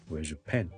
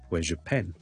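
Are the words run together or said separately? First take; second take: run together; run together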